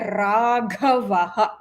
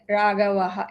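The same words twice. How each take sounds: First: The word is said with heavy, harsh force. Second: The word is said loosely, without clear articulation. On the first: "it's very harsh, it's not good" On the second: "speaking without clarity, very vaguely"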